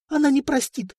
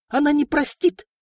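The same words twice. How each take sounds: First: High, frightened tearful warning; plead, close to tears. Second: Shrill cry. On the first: Princess pleading near tears. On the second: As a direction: shriek the warning. Princess shrieking refusal continues. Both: Acted.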